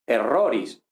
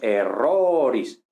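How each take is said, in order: First: Said in the usual way. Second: "erroris" alargando mucho la o; sostén la o tónica de "erroris"; o larga. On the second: Shown as a demonstration. ("erroris" lento, con la sílaba "ro" estirada) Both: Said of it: "la o es larga".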